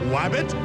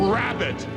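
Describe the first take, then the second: First: The word begins with a W sound. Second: The word begins with an R sound. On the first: The speaker calls it wrong. "not wabbit" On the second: The speaker calls it right. "it is pronounced rabbit"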